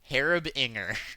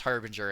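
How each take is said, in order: First: An extra vowel is added after the r. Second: No extra vowel is added after the r. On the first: The speaker calls it wrong. "I always read his name to be Harib Inger" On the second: The speaker calls it right. "then I learned that it's Harbinger"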